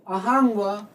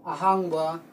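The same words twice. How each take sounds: First: Teacher sounding out ꯑꯍꯥꯡꯕ for the class; rising tone demo. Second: Said in the usual way. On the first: Shown as a demonstration. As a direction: model ꯑꯍꯥꯡꯕ clearly, stretching the last syllable. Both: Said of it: "ꯉꯧ ꯂꯣꯟꯁꯨꯝ is rising tone".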